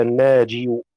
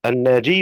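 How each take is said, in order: First: الناجي with a single, light final y. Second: الناجي with a heavy, doubled final y. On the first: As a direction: keep the ya ending الناجي undoubled. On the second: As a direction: lean on the doubled ya ending الناجي. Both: Shown as a demonstration. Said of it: "الياء مخففة أم مثقلة في النسبة".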